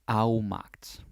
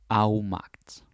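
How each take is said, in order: No difference in how they are said.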